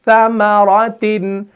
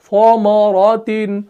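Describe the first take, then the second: First: The first syllable is light and thin. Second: The first syllable is thick and heavy. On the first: The speaker calls it right. "इसको भी बारीक पढ़ना है" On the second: The speaker calls it wrong. "इसको मोटा नहीं पढ़ सकते वरना ये बिगड़ जाएगा"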